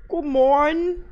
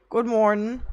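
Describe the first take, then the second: First: Higher, louder cheery announcer greeting; sing-song greeting. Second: Said in the usual way. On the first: Pretend. Streamer to chat, a big cheery sing-song greeting. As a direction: greet chat like a bright radio host.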